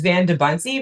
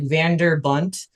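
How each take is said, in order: First: It is said with no 'r' sound. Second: It is said with an added 'r' sound. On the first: The speaker calls it right. "mine is Van de Bunty" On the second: The speaker calls it wrong. "everyone wants to like add an R, like Vander Bunt"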